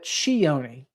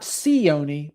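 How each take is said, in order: First: The name starts with a 'ch' sound. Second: The name starts without a 'ch' sound. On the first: The speaker calls it right. "like it's pronunciated C H, is the correct pronunciation" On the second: The speaker calls it wrong. "Not Cioni"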